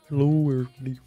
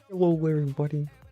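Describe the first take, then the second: First: It is a put-on, Kermit-like character voice. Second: It is said in a natural voice.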